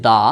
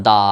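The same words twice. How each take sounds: First: Said in the usual way. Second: দা with the vowel stretched long; drawn-out open syllable. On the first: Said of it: "দাটি কিন্তু মুক্তাক্ষর". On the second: Shown as a demonstration. Teacher shows viewers an open syllable, দা drawn out long. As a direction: hold the aa of দা as long as you like. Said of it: "ইচ্ছে করলে টেনে লম্বা করে পড়তে পারছি, যেমন".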